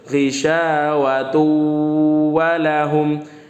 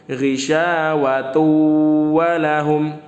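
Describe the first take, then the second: First: The n merges into a doubled w sound. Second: The same.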